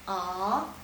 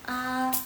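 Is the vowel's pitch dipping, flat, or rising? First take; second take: rising; flat. First: The pitch rises from low to high. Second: The pitch stays level and flat. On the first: "dia dari bawah ke atas" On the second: "Nada satu"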